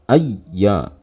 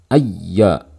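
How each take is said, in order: No difference in how they are said.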